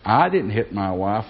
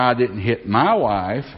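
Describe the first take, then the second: First: The stress is on the word I. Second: The stress is on the word my.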